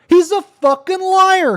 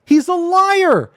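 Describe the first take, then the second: First: Much higher and louder, slow, leaning on fucking liar; furious. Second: Much higher, slow, loud He's a liar; angry. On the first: Streamer to viewers about the accuser, furious repeat. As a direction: escalate into full anger. Escalating angry rant. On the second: Streamer to viewers about the accuser, angry declaration. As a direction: spit out the accusation. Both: Real, not acted.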